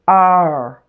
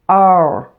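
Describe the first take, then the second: Both takes have the same delivery.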